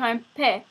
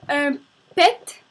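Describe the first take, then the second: First: The final T sound is silent. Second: The final T sound is pronounced. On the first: The speaker calls it right. "mais sans prononcer le T" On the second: The speaker calls it wrong. "c'est pas la bonne version"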